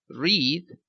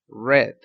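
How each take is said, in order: First: The word does not rhyme with 'red'. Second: The word sounds exactly like 'red'. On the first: It is the present tense. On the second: It is the past tense. "pasado, ... su pronunciación es red, como el color rojo"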